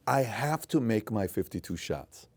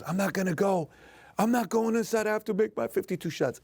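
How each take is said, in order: First: Said in the usual way. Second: Much higher, imitating a tearful kid; crying child refusing. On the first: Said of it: "He says". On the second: Dad imitating his crying son who refuses to quit, high tearful voice. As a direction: play the stubborn sick son, near tears.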